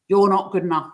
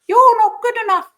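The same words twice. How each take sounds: First: It is said in a harsh, critical voice. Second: It is said in a silly, non-threatening voice. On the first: The inner criticism feels threatening. "Probably it's going to be quite critical voice" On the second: The inner criticism loses its power. "if he says it to me in that voice"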